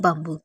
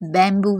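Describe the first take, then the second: First: The first vowel sounds like the vowel in 'cup'. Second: The first vowel sounds like the vowel in 'cat'. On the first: The speaker calls it right. "इसका सही sound होता है बम्बू" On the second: The speaker calls it wrong. "जिसे बहुत से student बैम्बू भी पढ़ते हैं"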